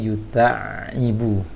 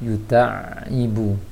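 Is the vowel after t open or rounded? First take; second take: open; open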